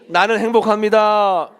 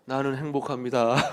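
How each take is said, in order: First: It is said in a bright, cheerful tone. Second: It is said in a gloomy, tearful tone.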